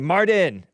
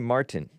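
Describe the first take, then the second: First: The name is said with a Spanish pronunciation. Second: The name is said with an English pronunciation. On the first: "a lot of Hispanics, Mexicans, they pronounce" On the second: "They wouldn't even say Martin"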